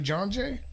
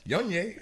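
First: The name is said with an English pronunciation. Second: The name is said with a Spanish-style pronunciation. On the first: "instead of John Jay" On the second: "one of my uncles would say"

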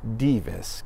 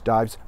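First: The name is said with Latin pronunciation. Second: The name is said with English pronunciation. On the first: "but in Latin pronounced Divis" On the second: "in English, Dives"

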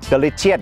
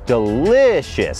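First: The second syllable is not the stressed one. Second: The stress falls on the second syllable. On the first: The speaker calls it wrong. "ไม่ได้ออกเสียงว่า" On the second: The speaker calls it right. "เน้นพยางค์ที่สองครับ"

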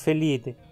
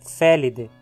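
First: The stress is on the second syllable. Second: The stress is on the first syllable. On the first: The speaker calls it wrong. "e não felide" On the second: The speaker calls it right. "o i é curto. Por isso, a palavra é proparoxítona"

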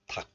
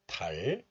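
First: The syllable ends in a k sound. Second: The syllable ends in an l sound. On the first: The word stands alone. "We pronounce this word as 닭 in isolation. Only 기역 sound is pronounced" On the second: A vowel follows the word. "the hidden 리을 sound regains its value. So it is pronounced as 달"

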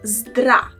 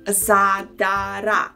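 First: The three consonants are said with no vowels between. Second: Extra vowels are inserted between all three consonants. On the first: The speaker calls it right. "Instead of this, say zdra" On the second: The speaker calls it wrong. "or zadara"

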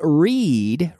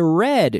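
First: The vowel is long, like in reed. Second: The vowel is short, like in red. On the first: It describes something done habitually in the present. "Every day I read, E-E-E, read" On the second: It describes something done in the past. "yesterday I read, just like the color red"

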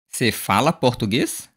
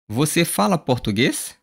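First: The first word is shortened to cê. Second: The first word is said in full as você.

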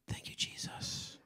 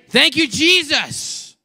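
First: It is said in a whisper. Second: It is said loudly, with raised volume.

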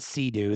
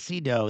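First: The name sounds like the jet ski 'Sea-Doo'. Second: The name does not sound like 'Sea-Doo'. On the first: The speaker calls it wrong. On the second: The speaker calls it right.

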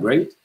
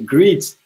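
First: The vowel sounds like 'ay' in 'day'. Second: The vowel sounds like 'ee' in 'eagle'. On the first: The speaker calls it right. "le mot great, c'est super" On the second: The speaker calls it wrong. "je le pensais great"

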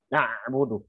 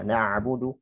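First: The ain sound is pressed and held tightly. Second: The ain sound is moderate, not held back. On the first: The speaker calls it wrong. "Itu jadi syiddah nanti" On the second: The speaker calls it right. "biasa saja na'budu, tidak terlalu tahan"

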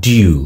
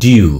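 No difference in how they are said.

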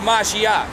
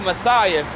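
First: It is said with the Hebrew pronunciation. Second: It is said with the English pronunciation. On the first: The speaker calls it right. "but it's really Mashiach" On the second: The speaker calls it wrong. "we say Messiah"

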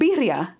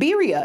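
First: The R sound is rolled. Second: The R sound is not rolled. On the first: The speaker calls it right. "You should know how to roll your R's" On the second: The speaker calls it wrong. "It's not birria"

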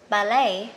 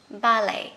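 The two takes are said the same way.

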